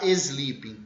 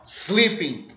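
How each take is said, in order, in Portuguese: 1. Um som de vogal extra vem antes do s. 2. A palavra começa direto com um s sibilante. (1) "não é para colocar uma vogal e falar sleeping" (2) "Corta esse E, só s, barulho da cobra"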